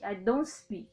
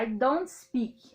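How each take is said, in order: First: Said in the usual way. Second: "don't" said as one joined word, slowly; teacher slowing down to show "don't" joined up; slow contracted don't. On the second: Shown as a demonstration. Teacher drills the contraction for students, slow and clear. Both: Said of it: "eles adoram juntar".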